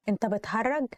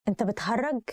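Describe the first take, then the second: No difference in how they are said.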